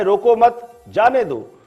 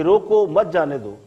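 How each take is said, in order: First: "रोको मत", then "जाने दो" set apart and stressed; slow demo, leaning on जाने in "जाने दो". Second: "रोको मत" said as one unit, then "जाने दो"; slow demo joining मत to रोको, meaning don't stop them; grouped as रोको मत. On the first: Anchor showing viewers the phrase's other meaning, stress on "जाने दो". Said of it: "और अगर ये कहा जाए". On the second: Anchor showing viewers one reading of a famous phrase, grouped as "रोको मत". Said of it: "अगर ये कहा जाए कि". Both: Shown as a demonstration.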